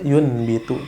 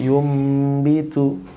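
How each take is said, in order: First: An n sound comes before the b. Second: An m sound comes before the b. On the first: The speaker calls it wrong. "Tidak dibaca" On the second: The speaker calls it right.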